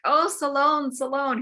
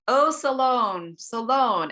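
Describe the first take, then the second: First: Higher, louder anguished calling; condemned king calling out from the fire; crying out again. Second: Higher, louder, slow anguished calling; slow desperate cry of a name. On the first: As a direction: repeat the name as a desperate cry. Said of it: "He repeats the name". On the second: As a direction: call the name out from the pyre. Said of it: "he cries out". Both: Retold or imitated.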